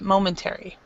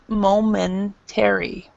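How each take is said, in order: First: The word is said at a faster pace. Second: The word is said at a slower pace. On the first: "it's faster than the way I said it" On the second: "the way I said it"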